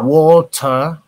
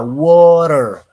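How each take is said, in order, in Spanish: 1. Acento británico, con un sonido de t clara. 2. Acento americano, la t suena como una r suave. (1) "un británico puede decir water" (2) "un americano diría water, ... la T ... suena como una R suave"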